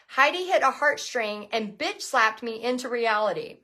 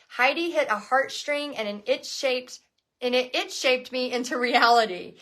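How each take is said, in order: First: "bitch slapped" said clearly as written; correct reading. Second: "an itch shaped" read where "bitch slapped" was written; misreading the quote. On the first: Host rereads the fan's post, now correctly. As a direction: reads "bitch slapped me into reality" right this time. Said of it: "Let me start again". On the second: Host misreads a fan's post aloud, stumbling. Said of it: "I'm ruining the sentence. Let me start again". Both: Real, not acted.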